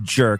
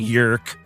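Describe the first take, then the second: First: The name begins with a 'j' sound. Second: The name begins with a 'y' sound. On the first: The speaker calls it wrong. "names I can't pronounce properly. Like jerk" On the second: The speaker calls it right. "It's probably yerk"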